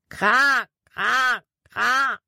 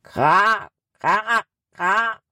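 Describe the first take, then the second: First: High close cawing, kra kra kra; crow call imitation. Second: A crow cawing back from far off in the forest; distant crow answer. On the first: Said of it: "Erneut schrie Jordan". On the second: Acted. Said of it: "Aus einiger Entfernung".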